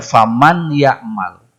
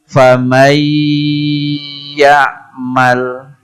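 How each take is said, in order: First: The n is pronounced clearly before the y. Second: The n merges into the y with nasalization. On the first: The speaker calls it wrong. "sehingga tidak dibaca faman ya'mal" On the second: The speaker calls it right. "maka diidghamkan. Disertai gunnah sehingga tetap dibaca kayak tadi"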